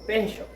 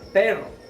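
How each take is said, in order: First: The middle consonant is a ch-like sound. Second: The middle consonant is a trilled r sound. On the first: The speaker calls it wrong. "Ellos estarían pronunciando de esta manera" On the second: The speaker calls it right. "no pronuncian perro"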